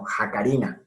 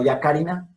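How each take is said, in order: First: The word begins with a harsh h sound. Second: The word begins with a y sound. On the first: The speaker calls it right. "sino Jacarina" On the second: The speaker calls it wrong. "no Yacarina"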